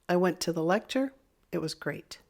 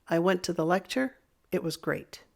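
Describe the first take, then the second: The two takes are said the same way.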